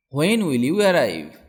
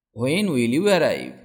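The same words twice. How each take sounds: The two takes are said the same way.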